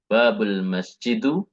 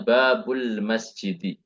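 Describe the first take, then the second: First: The last word ends in a u vowel. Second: The last word ends in an i vowel. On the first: The speaker calls it wrong. "Tidak boleh" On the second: The speaker calls it right. "kita di sini harus membacanya"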